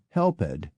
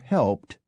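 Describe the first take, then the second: First: The word is said as two syllables. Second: The word is said as one syllable. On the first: This is the older way of saying it. "to indicate the historic pronunciation" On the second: This is the newer way of saying it. "to signify the modern one"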